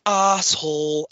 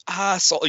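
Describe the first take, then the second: First: Slow, drawn-out Canadian crowd chant; Canadian accent. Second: Put-on higher, falling Canadian accent jeer. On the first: Retold or imitated. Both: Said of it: "I can't really do a Canadian accent".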